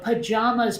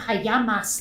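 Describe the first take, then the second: First: The middle consonant is a J sound. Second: The middle consonant is a Y sound.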